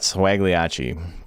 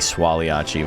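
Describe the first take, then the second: First: A hard g sound is heard mid-word. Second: No hard g sound is heard mid-word. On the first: It is said the way the name was intended. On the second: It follows the original spelling's proper pronunciation.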